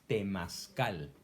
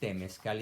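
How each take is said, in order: First: The second vowel sounds like 'a'. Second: The second vowel sounds like 'e'. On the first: The speaker calls it right. "es temazcal" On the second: The speaker calls it wrong. "estás pronunciando mal. No es temezcal"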